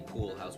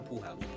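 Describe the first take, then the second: First: The L sound in pool is pronounced. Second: The L sound in pool is dropped. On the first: The speaker calls it wrong. "We don't say pool house" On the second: The speaker calls it right. "We say I'm go. I'm out to the pool house"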